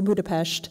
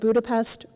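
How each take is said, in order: First: The last syllable ends with an sh sound. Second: The last syllable ends with a plain s sound.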